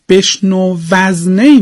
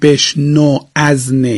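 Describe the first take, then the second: First: The final v runs straight into the next word. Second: Each word is said separately, without linking. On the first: The speaker calls it right. "بشنو وزنی میخونیم" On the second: The speaker calls it wrong. "نمیخونیم بشنو از نی"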